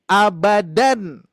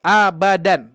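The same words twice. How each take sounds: First: Abadan stretched very slowly, a-ba-dan drawn out; slow demo word. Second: Abadan said out loud and firm, each syllable crisp; clear demo word. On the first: Teacher modelling tanwin pronunciation for students, very slow. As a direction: spell out Abadan slowly so each sound is heard. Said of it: "Hanya dari pelafalannya saja". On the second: Teacher showing students the word, loud and clear. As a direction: call out Abadan clearly for the class. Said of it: "Nih, Pak, Bu, ya". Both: Shown as a demonstration.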